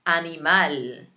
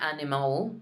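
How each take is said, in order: First: Animal with pure Spanish vowels, ah-nee-MAHL, slow; Spanish pronunciation. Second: Animal said the English way, AN-ih-mul; the wrong English animal; English pronunciation. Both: Shown as a demonstration. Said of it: "not animal".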